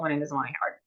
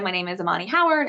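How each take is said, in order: First: It is quiet and mumbled with little mouth movement. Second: It is spoken clearly at normal volume. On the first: This is how speech sounds when affected by the illness. The speaker calls it wrong. "So it was very low volume. You barely opened your mouth" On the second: This is how healthy speech sounds. The speaker calls it right. "instead of saying"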